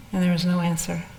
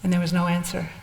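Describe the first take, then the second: No difference in how they are said.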